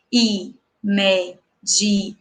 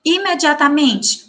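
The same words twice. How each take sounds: First: "Imediatamente" drawn out slowly, i-me-di-a-ta-men-te; slow syllable by syllable. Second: Said in the usual way. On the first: Shown as a demonstration. ("Imediatamente" pausada, sílaba por sílaba, bem devagar) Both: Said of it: "pronunciar a palavra de forma pausada".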